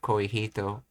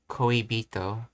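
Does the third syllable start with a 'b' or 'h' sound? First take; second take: h; b. First: The third syllable starts with a breathy 'h' sound. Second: The third syllable starts with a voiced 'b' sound. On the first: The speaker calls it wrong. "instead of koihito" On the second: The speaker calls it right. "pronounced as ao, as uh, koibito"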